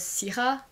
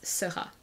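First: It does not sound like 'sera'. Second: It sounds like 'sera' in que sera sera. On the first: The speaker calls it wrong. "I was wondering if it was Syrah" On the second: The speaker calls it right. "but it's Syrah"

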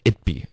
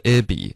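First: A brief stop separates the two words. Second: The two words run together without a stop. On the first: It is the short form of it would be. The speaker calls it right. "停顿的标不标准的这种停顿" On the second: It sounds like a name. The speaker calls it wrong. "Abby 就听上是一个什么地区的名字"

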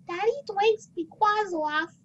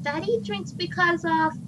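First: It is said in a put-on little girl voice. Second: It is said in the speaker's normal voice. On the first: The speaker calls it right. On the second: The speaker calls it wrong.

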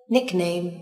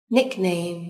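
The two takes are said the same way.

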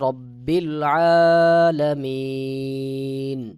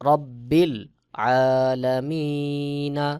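First: The long 'ee' is stretched and it ends on 'n'. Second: The last word ends in a short vowel 'a'. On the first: The reader stops at this word. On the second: The reading continues without a stop.

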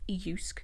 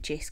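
First: The name begins with a Y sound. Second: The name begins with a J sound. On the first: The speaker calls it right. "but it is pronounced Jysk" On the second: The speaker calls it wrong. "The way you see it spelled, you would kind of pronounce it Jysk"

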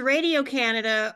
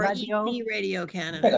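First: The name is pronounced with English sounds. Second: The name is pronounced with French sounds.

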